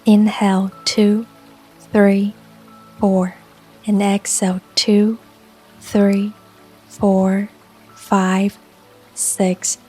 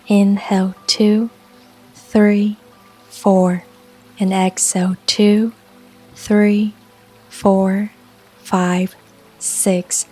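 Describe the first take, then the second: No difference in how they are said.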